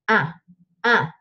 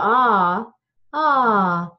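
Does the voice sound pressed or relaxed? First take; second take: pressed; relaxed. First: The voice is pressed and strained in the throat. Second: The voice is relaxed and resonant without strain.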